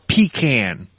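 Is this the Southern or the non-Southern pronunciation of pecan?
Southern. It is said in the Southern way. "especially in the South, call it pecan"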